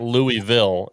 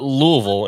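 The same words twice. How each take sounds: First: The name is said without a Southern accent. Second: The name is said in a Southern accent. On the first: The speaker is not from the South. "and not Louisville" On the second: The speaker is from the South. "you call it Louisville"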